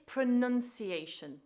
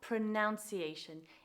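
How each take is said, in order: First: The second syllable sounds like nun. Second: The second syllable sounds like noun. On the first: The speaker calls it right. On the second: The speaker calls it wrong. "and not ... In spite of the verb being to pronounce"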